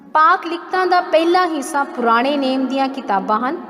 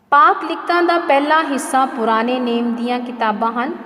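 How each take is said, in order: Both takes have the same delivery.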